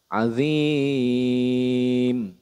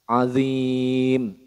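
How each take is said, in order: First: The long vowel is held for three counts. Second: The long vowel is held for one count. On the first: "Kalau tiga alif" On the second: "itu satu alif"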